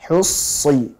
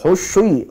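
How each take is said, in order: First: The middle consonant is a sharp s. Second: The middle consonant is a spread sh. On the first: The speaker calls it right. "Hus, tajam" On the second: The speaker calls it wrong. "jangan khusyi ... jangan sampai ada sifat tafasyinya"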